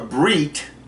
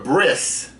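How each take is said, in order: First: The word ends with a T sound. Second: The word ends with an S sound.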